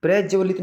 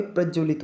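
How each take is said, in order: First: प्रज्वलित opened out as "pre-jawalit"; wrong pronunciation. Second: प्रज्वलित with short vowels, "prajjwalit"; correct pronunciation. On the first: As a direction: show प्रज्वलित with a mistaken stretched first vowel. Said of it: "प्रज्वलित नहीं होता भाई". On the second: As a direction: teach प्रज्वलित with a tight "prajj". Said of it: "प्रज्वलित होता है". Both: Shown as a demonstration.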